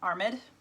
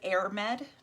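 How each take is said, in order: First: The name begins with an 'ar' sound. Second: The name begins with an 'air' sound. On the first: The speaker calls it right. "Seems to be the general consensus on how to pronounce that" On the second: The speaker calls it wrong. "it looks like Airmed"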